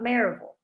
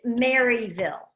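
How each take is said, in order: First: Maryville is said with a Southern US pronunciation. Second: Maryville is said with a Northern US pronunciation. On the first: The speaker is local to the town. The speaker calls it right. "I think you might be talking about Maryville" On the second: The speaker is an outsider to the town. The speaker calls it wrong. "where is Maryville?"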